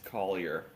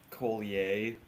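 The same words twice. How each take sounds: First: The name is said with an American pronunciation. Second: The name is said with a French-sounding pronunciation. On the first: The speaker calls it right. "It's Collier. I'm an American" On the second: The speaker calls it wrong. "my last name gets mispronounced sometimes"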